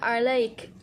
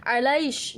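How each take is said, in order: First: The word ends with a 'k' sound. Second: The word ends with an 'sh' sound. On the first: This is the standard form. "bukan alaik" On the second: This is a Yemeni dialect form. "mengatakan umpamanya alaish"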